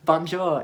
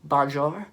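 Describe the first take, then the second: First: Scouse bonjour, louder, falling at the end; Scouse accent. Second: "Bonjour" rising at the end as a question. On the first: Fan confirming how Liverpool says it, Scouse accent. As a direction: answer firmly with a Scouse bonjour. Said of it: "in a Scouse accent". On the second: Performer checking how Liverpool says it, questioning "Bonjour" with rising end. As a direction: echo "Bonjour" back with a querying lift. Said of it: "Is that how you say it in Liverpool?". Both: Retold or imitated.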